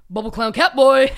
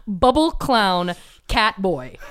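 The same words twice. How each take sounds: First: Quick, blurted quote of a rambling man; rambling stranger's greeting. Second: Spaced-out word-by-word quote; slow deliberate repeat. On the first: Man out of his mind greets driver, imitated in a quick blurt. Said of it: "These were the words he said to me". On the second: Podcaster repeats stranger's words to co-host, slowly and deliberately. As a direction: draw each word out for comic emphasis. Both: Retold or imitated.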